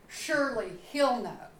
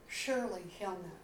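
First: Said in the usual way. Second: Softer repeat of "Surely he'll know", trailing off; a hushed second "Surely he'll know", half to herself; quiet echo. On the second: Shown as a demonstration.

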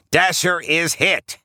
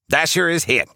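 First: High-pitched, drawn-out character cry; Rudolph yelling. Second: High-pitched character cry of alarm; Rudolph yelling. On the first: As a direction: stretch the alarm out slowly in a high put-on voice. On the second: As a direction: cry out the bad news in a high put-on voice, briskly. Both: A narrator's reading. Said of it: "yells Rudolph".

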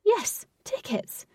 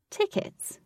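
First: Slow, high YES before TICKETS; confirming answer. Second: TICKETS as a high, soft query; questioning. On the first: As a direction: confirm "tickets" slowly and deliberately. Queen confirms the queried word. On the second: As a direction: ask "Tickets?" high-pitched, inquiring. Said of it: "Katie inquired". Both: A narrator's reading.

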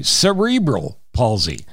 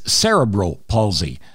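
First: Cerebral said suh-REE-brul, stressed in the middle; everyday "cerebral", with a long stressed REE; common pronunciation. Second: Cerebral said SERR-uh-brul, stressed at the start; dictionary "cerebral", SERR-uh-brul; dictionary pronunciation. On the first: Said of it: "most people actually say". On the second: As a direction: hit the first syllable of "cerebral", SERR-uh-brul. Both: Shown as a demonstration.

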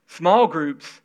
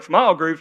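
First: Like someone eager to join; willing, sincere. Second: A mild put-out scoff at "Small groups?"; grudging question. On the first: Shown as a demonstration. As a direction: say "Small groups," gladly and open. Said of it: "See the difference?". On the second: Retold or imitated. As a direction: ask "Small groups?" as if it is a burden. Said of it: "you're like".

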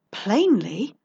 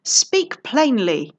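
First: Rising, teasing echo of "Plainly"; amused echo. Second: Slow, loud, barely held anger; angry demand. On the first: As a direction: toss "Plainly" back as a question. Detective echoes the count's word. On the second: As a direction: bite out each word slowly. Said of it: "having a problem keeping his voice down". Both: Acted.

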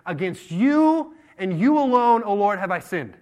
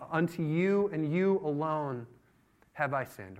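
First: Loud, high, slow cry to God; impassioned confession. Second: Slow, deliberate, falling away at the end; measured confession. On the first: David face down in the temple, impassioned confession. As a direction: draw out YOU, full voice. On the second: David confessing to the Lord, measured and slow. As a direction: weigh each word without raising the voice. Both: Acted.

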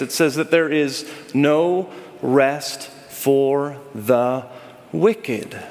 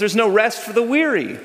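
First: Drawn-out reveal ending on "wicked"; slow emphatic ending. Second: "weary" said higher as the familiar ending; the everyday version of the phrase; common version. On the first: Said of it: "it's the origin of that phrase". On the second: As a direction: toss off "weary" as the everyday saying. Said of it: "we use the phrase". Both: Shown as a demonstration.

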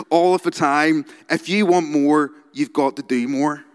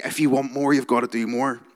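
First: Aggressive motivational speaker. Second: Said in the usual way. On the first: Retold or imitated. Quoting the entrepreneur to the congregation, aggressive and loud. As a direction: bark it like a hustle guru. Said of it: "I'm gonna read you some of his quotes".

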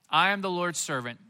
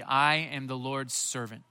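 First: Said in the usual way. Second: Slow and simple. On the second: Shown as a demonstration. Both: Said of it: "when she says simply".

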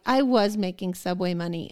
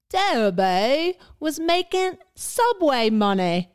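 First: Said in the usual way. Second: Slow, high hammed-up Cockney; exaggerated Cockney comment-reader. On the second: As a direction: drag out the vowels in mock Cockney. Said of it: "how do you say Debbie in Cockney".

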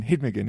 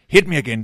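First: Said in the usual way. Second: Demanding refill. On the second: Retold or imitated. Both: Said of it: "Og så siger han".

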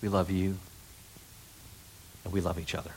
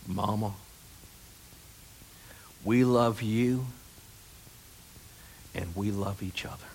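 First: Soft tender quote. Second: Mitch impersonation. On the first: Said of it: "don't you want to hear". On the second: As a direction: whisper it gently, as if at a bedside. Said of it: "I'm gonna do my impersonation of Mitch". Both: Retold or imitated.

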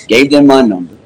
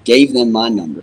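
First: Louder, punching the whole phrase "Gave them my number"; emphatic repeat. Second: Said in the usual way. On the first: Real, not acted. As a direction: hit "Gave them my number" hard the second time.

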